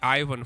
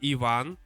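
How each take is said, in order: First: The name is said with an American pronunciation. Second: The name is said with a Russian pronunciation. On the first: "Americans say Ivan" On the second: "it's actually Ivan"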